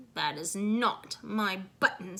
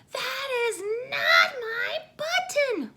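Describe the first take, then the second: First: Said in the usual way. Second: High, loud, slow crying wail; wailing Toad. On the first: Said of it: "said Toad". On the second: A narrator's reading. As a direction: wail it like a child who lost everything. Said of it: "wailed Toad".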